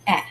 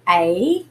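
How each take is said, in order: First: The vowel is short, as in apple. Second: The vowel is long, as in ape. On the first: "it has a short sound" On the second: "the letter A has a long sound like A"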